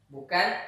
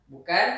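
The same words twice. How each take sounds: The two takes are said the same way.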